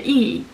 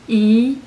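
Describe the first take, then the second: First: The syllable is said with the fourth tone. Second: The syllable is said with the second tone.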